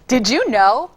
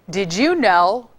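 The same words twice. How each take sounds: First: It is said in a happy tone. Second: It is said in a sarcastic tone. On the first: "Now I can give it to you, happy" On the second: "How about if I give it to you, um, sarcastic?"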